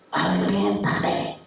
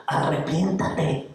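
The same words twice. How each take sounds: First: Much lower, breathy whispered repeat. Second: Said in the usual way. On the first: Acted. Captive repeats his plea to the kidnapper, whispered. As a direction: let it fall to a hushed whisper.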